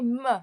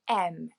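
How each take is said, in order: First: It begins with a consonant sound. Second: It begins with a vowel sound. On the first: The speaker calls it wrong. "we don't say M" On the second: The speaker calls it right. "the first sound we hear is a E"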